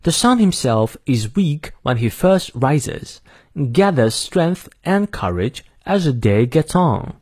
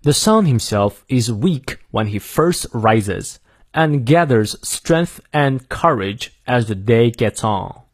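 First: Slow, careful British English reading; British accent with R silent after vowels; British pronunciation. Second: Slow, careful American English reading; American accent with R sounded after vowels; American pronunciation. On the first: Teacher reading the whole quote for learners, British pronunciation. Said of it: "英式发音我再念一遍". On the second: Teacher reading the whole quote for learners, American pronunciation. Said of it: "美式发音念两遍". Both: Shown as a demonstration.

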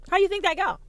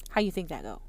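First: Much higher, a bright mocking question; high mocking take. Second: Low muttered take. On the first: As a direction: lift it high like a taunt. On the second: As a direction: lower and softer, muttered to yourself. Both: Shown as a demonstration.

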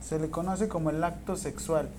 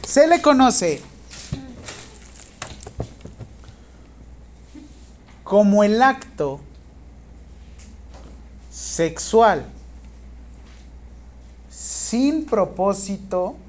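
First: Said in the usual way. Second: Slow, loud teacher's dictation. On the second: Real, not acted. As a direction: dictate in spaced-out chunks, projecting firmly. Teacher dictating exam question to students.

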